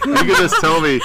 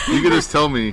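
First: High, laughing through the words. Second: Said in the usual way. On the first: Real, not acted. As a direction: say it while cracking up. Laughing at friend's imitation.

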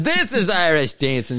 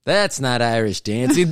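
First: "This" raised high at the start; stress on THIS. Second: "not" picked out against what follows; stress on NOT. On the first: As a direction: show the real thing, punching "This". Acted correction, this versus that. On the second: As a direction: correct them, leaning on "not". Acted correction, not versus this. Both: Acted.

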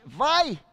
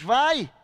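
First: Put-on bright, encouraging "Vai!" to a child, a bit louder; a parent happily letting the child jump in; joyful go-ahead with a lift; cheerful permission. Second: "Vai!" thrown out hard and louder, cold and final; a father throwing his son out; curt banishing command; harsh dismissal. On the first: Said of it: "E a criança tá feliz, porque vai". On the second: Retold or imitated. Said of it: "expulsa de casa e diz".

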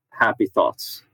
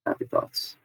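First: Said in the usual way. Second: Very low, soft murmur; barely voiced, low and quiet; hushed soothing mantra. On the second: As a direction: murmur it softly under your breath. Repeats soothing thought under breath.

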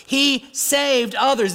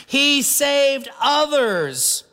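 First: "He saved others" with "He" pressed and held, slow and earnest; stress on HE. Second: "He saved others" said slow and sneering, weight on "He"; scoffing mock quote. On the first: Shown as a demonstration. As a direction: lean on "He" to admit the miracles. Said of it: "They acknowledge these undisputed miracles". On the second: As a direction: let the scorn hang on "He". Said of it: "they scoffed".

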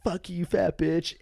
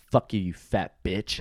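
First: High, drawn-out retold taunt; prank-call taunt. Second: Retold insult, slow and deliberate; slow parting insult. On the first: Guest retells phoning clerk just to insult her, high taunting. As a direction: sing out the insult slowly in a raised voice. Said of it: "I called the hotel". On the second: Guest retells cursing clerk while walking out, slow and deliberate. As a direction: draw out the parting shot without raising the voice. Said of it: "I look that chick in the fucking face".

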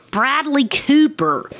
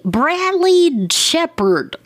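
First: High, slow, relieved naming; triumphant recall. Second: High, slow, drawn-out guess at the name; stretching out a half-remembered name; wrong name blurted. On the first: Podcaster finally remembering the raccoon's voice actor, high triumphant. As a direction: land the name like a eureka. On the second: Podcaster straining to recall the actor, high drawn-out guess. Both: Real, not acted.

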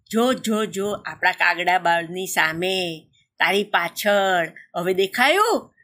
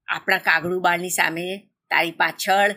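First: Slow, drawn-out repeat; patient explaining. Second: Said in the usual way. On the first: A narrator's reading. Crow explains to his wife where to look, slow insistence. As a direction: stretch "સામે" and "પાછળ" out slowly to point the way. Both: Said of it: "પત્નીને સમજાવતા કાગડો બોલ્યો".

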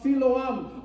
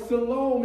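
First: "Siloam" said as sigh-LOH-am; Siloam in three syllables. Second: "Siloam" said as si-LOME; Siloam in two syllables. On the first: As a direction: sound the final "am" of "Siloam" separately. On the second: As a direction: rhyme the end of "Siloam" with home. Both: Shown as a demonstration. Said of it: "as some may pronounce it".

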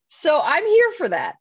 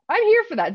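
First: High, bright and eager; excited. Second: Even higher, gleeful repeat; more excited. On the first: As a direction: say it with rising glee. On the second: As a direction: push it higher with delight. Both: Real, not acted.

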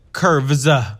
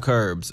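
First: "curves" with a hard V and an extra "uh" after it; over-enunciate the V and Z in "curves"; corrected pronunciation. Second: Said in the usual way. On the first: Real, not acted. Correcting it from the kerbs you walk on, "curves" over-enunciated. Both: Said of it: "not curves that you walk on".

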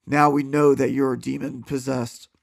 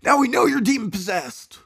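First: Said in the usual way. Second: Higher exclaiming retake. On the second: A narrator's reading. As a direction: exclaim it up high, accusing. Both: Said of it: "I'm sorry".

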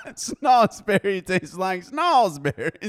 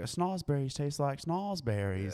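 First: High, slow, laughing quote. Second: Movie quote, slow. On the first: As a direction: laugh through the line. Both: Retold or imitated.

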